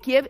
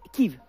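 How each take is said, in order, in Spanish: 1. El nombre se dice como 'Kiev'. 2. El nombre se dice como 'Kyiv'. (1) "Kiev es la pronunciación rusa" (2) "¿Y cuál es la ucraniana de Kiev?"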